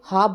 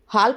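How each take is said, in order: First: The L sound is silent in the word. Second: The L sound is pronounced in the word. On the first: The speaker calls it right. "इसको हाफ बोला जाता है" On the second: The speaker calls it wrong. "इसका हाल्फ नहीं बोला जाता है"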